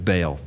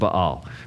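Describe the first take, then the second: First: The word is said as one syllable. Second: The word is said with two separate syllables. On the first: This is how people commonly say it. The speaker calls it wrong. "but we all pronounce it Baal" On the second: This is the proper pronunciation. The speaker calls it right. "it should be pronounced Baal"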